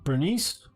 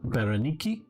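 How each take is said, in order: First: The name ends with an s sound. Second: The name ends with a k sound.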